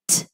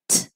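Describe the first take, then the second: Both takes have the same delivery.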